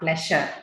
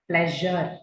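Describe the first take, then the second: First: The middle consonant is a voiceless sh sound. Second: The middle consonant is a voiced zh sound. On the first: The speaker calls it wrong. "so it's not sh" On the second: The speaker calls it right. "It's a zh sound"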